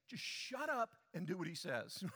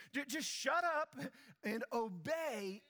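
First: Laughing through the blunt words; amused, half-laughing bluntness. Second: Much higher, louder, shouted command. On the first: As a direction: say it with a chuckle. Preacher paraphrases scripture, laughing. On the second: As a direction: belt it out from the pulpit. Preacher repeats the command, shouting. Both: Real, not acted.

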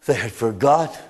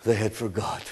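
First: "They had forgot" low, with stress on "They" and a lift at the end; a grave repeat with "They" stressed; repeated with weight. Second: "they had forgot" dropped lower and much softer, almost whispered; a sorrowful near-whisper; hushed. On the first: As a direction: say it again, leaning on "They". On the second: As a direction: let it sink to a hush. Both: Shown as a demonstration.

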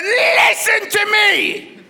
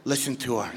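First: High, loud, drawn-out mock shriek; angry wife. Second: Very low, soft divine voice; voice of God. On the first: Angry wife in the car ordering husband to listen, high furious shout. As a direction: screech it slowly in comic fury. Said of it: "She was angry". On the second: Retold or imitated. God advising the husband about his wife, low quiet command. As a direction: quietly rumble a deadpan command.

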